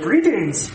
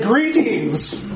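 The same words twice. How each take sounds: First: It is said in a Marvin the Martian voice. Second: It is said in a normal reading voice.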